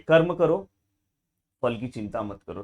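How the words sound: There is a pause after the first two words. The speaker calls it right. "कर्म करो के बाद हम रुकेंगे"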